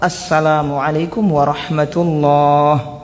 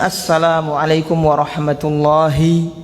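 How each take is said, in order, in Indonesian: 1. Kata terakhir berhenti tanpa vokal akhirnya. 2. Kata terakhir mempertahankan vokal akhirnya. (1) "Tapi di waqaf"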